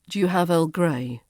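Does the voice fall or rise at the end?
fall. The pitch falls at the end. It sounds like a statement of fact. The speaker calls it wrong. "But you say it with a falling intonation"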